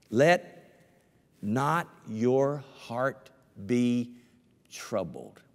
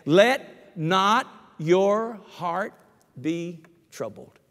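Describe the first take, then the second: First: Each word drawn out slowly; solemn slow scripture read; slow scripture emphasis. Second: Higher, louder and slow on "Let not your heart"; preacher raising the repeated verse louder; louder slow emphasis. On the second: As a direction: push "Let" up and hold every word slow. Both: Shown as a demonstration. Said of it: "two times in the same chapter".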